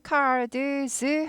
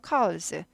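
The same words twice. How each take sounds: First: The d sound is fully pronounced. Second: The d sound is swallowed and barely heard. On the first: The speaker calls it wrong. "하지 않고" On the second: The speaker calls it right. "드가 묻혀갑니다"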